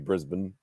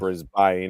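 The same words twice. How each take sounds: First: The name is said the local way. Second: The name is said as it is spelled. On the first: "the way we say it" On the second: "instead of saying"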